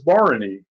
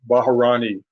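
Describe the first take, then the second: First: No extra vowel follows the first consonant. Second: An extra vowel is inserted after the first consonant. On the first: The speaker calls it right. "But it's Bharani" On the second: The speaker calls it wrong. "I used to call Bharani Baharani"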